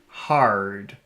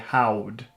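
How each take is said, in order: First: The R sound is full and clear. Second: The R sound is weak and childlike. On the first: The speaker calls it right. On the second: The speaker calls it wrong.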